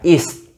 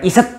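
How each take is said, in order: First: The word ends short with a clipped t. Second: An extra vowel is added after the t. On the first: The speaker calls it right. "tapi T-nya ini cuma kayak sepenggal, jadi cuma is gitu loh" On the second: The speaker calls it wrong. "bukan iset ya"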